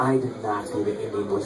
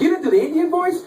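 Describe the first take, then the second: First: Low, soft, quick mumbled answer; acted-out quiet, low reply; downbeat admission. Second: High-pitched disbelieving friend; acted-out astonished query; incredulous question. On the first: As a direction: admit it under your breath, quickly. Acting out his downbeat answer to friend.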